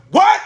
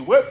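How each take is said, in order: First: High, loud stunned yelp; shocked what. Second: Said in the usual way. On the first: Real, not acted. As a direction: blurt it out in total shock. Shocked repeat.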